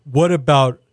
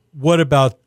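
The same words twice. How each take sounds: The two takes are said the same way.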